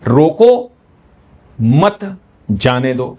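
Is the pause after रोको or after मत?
after मत. The pause comes after मत.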